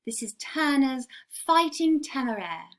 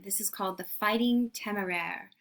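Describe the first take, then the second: First: English accent. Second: Said in the usual way. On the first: Shown as a demonstration. Teacher gives the painting's name in an English accent. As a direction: say the title like a proper English gallery guide. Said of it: "English accent". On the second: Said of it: "or if you wanna say it with the".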